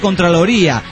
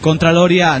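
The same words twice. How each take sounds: First: The stress falls on the 'rí' syllable. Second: The stress does not fall on 'rí'. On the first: "con acento en la I" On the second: "Contraloría nos gusta más"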